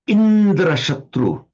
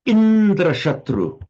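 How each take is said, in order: Both takes have the same delivery.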